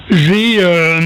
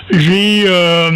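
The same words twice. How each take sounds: The two takes are said the same way.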